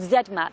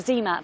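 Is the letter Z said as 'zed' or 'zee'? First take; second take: zed; zee. First: The letter is said the British way, 'zed'. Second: The letter is said the American way, 'zee'.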